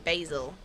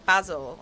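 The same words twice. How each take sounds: First: The word is said in an American accent. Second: The word is said in a non-American accent. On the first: "turn American" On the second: "instead of saying basil"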